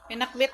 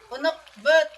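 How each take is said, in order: First: The word is said in the speaker's usual pronunciation. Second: The word is said in another group's pronunciation. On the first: This is how the speaker's own community says it. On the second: This is how other people say the dish's name.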